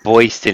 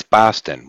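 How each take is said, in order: First: Boston mimicked as "BOY-stin"; mimicked wrong pronunciation. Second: Boston said as "BAH-stin"; corrected local pronunciation. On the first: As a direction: echo Boston with a mistaken "oy" vowel. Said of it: "No, it's not Boston". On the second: Shown as a demonstration. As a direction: open "ah" in the first syllable of Boston. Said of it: "It's Boston".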